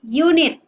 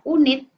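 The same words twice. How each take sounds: First: The word begins with a consonant-like y sound. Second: The word begins with a plain vowel sound. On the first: The speaker calls it right. "tetapi unit" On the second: The speaker calls it wrong. "tidak unit"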